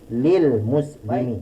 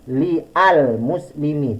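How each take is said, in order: First: Li and al are merged into lil. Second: Li and al are said as separate syllables. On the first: The speaker calls it right. "tapi lil muslimi" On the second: The speaker calls it wrong. "Jadi tidak diucapkan dengan li al muslimi, tidak"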